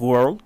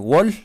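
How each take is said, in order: First: The word is said with its full 'world' sound. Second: The word sounds like 'wall', without the r. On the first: The speaker calls it right. "¿No es World?" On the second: The speaker calls it wrong. "esta señora o señorita dice Wall"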